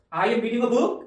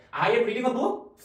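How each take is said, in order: First: "book" lifted at the end as a question; statement turned question by rising tune. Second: 평서문 "book" 끝을 위로 올리기; rising end. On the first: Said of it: "끝에만 올리라고요". (끝 "book"을 올리는 억양) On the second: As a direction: end on a rising question tune. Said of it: "그냥 이 상태에서 끝에만 올리세요". (문장 끝 "book"을 올려서 묻기) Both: Shown as a demonstration.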